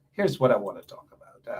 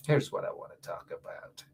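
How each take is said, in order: First: Said in the usual way. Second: Whispered, much softer. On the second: Shown as a demonstration. Radio host teasing listeners before the topic, whispered. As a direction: lean in and whisper it.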